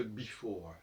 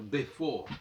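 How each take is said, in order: First: BEFORE with a first syllable like "bee"; usual English pronunciation. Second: "before" with first E as French é, "bé-for"; corrected French-style pronunciation. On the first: Teacher citing the English word as his example, usual pronunciation. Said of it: "Il faudrait donc dire before". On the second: Teacher showing how it ought to be said, "before" as bé-for. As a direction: say "before" as bé-for, final E silent. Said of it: "il faudrait prononcer E". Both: Shown as a demonstration.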